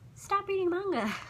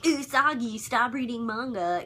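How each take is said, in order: First: The voice sounds small and meek. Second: The voice sounds big and forceful.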